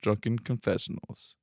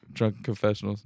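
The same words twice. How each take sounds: First: Put-on Drunken slow, falling, final s clear; stress on drunken. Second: Put-on Drunken leaned on, plural confessionals; stress on drunken. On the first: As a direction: slowly stress Drunken confessionals. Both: Shown as a demonstration. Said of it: "not confessional".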